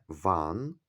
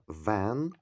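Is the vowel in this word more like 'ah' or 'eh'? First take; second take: ah; eh. First: The vowel sounds like 'ah'. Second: The vowel sounds like 'eh'. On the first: It sounds like the word for one. The speaker calls it wrong. "Не ван, тому що ван це один" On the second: It means a delivery truck. The speaker calls it right. "а вен це вантажівка"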